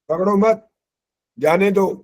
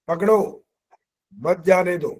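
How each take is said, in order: First: The pause comes after the word मत. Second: The pause comes after the word पकड़ो. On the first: Do not catch him; let him go. "कहाँ तो कह रहा है जाने दे जाने दे" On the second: Catch him; do not let him go. "और कहाँ कह रहा है ओए पकड़ा क्यों नहीं?"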